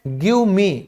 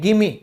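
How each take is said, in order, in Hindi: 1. दोनों शब्द पूरे और अलग-अलग बोले जाते हैं। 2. शब्द मिलकर एक हो जाते हैं, gimme।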